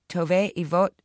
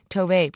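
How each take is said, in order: First: Loud announced name; announcer voice. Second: Loud shouted name. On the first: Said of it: "the host announced". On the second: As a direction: call her name out loud. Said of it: "principal and teacher shouted". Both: A narrator's reading.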